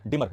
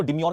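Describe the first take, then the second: First: डिमर ending in a plain "mar", no y-glide; correct pronunciation. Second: डिम्योर with a "myor" glide at the end; wrong reading. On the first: Teacher warns students off the demure reading, correct pronunciation of डिमर as "di-mar". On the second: Teacher shows students how not to read it, mispronounced as डिम्योर, "di-myor". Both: Shown as a demonstration. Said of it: "इसको डिम्योर नहीं पढ़ेंगे".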